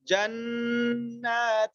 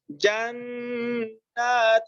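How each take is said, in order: First: جنات with the doubled نون held and hummed; slow جنات, lingering on the shadda نون; recited جنات with long nasal نّ; jannat with idgham. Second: جنات slowed, the tanween نون hummed through the nose; drawn-out recitation of جنات; slow Quranic جنات with nasal hum; ghunna on jannat. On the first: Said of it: "دونوں میں فرق". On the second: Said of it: "اخفا مع الغنہ". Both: Shown as a demonstration.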